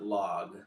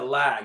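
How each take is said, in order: First: The vowel sounds like the one in 'log'. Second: The vowel sounds like the one in 'cat'. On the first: "I think they pronounce it log" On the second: "It says L A G"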